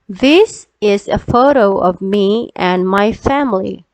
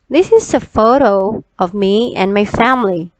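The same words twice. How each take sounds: First: It is read at a slower pace. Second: It is read at a faster pace.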